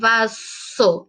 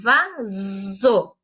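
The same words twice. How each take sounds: First: The middle consonant is a hissing s sound. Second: The middle consonant is a buzzing z sound. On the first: The speaker calls it wrong. "Ele não vai ter o som de S. Eu não falo vaso" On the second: The speaker calls it right. "ele vai ter o som de Z"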